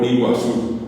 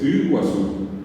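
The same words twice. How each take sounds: First: The first vowel is a front i sound. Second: The first vowel is a central, unrounded vowel. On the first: The speaker calls it wrong. "lo más parecido a la U que le va a salir es una I" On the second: The speaker calls it right. "Es Iguazú"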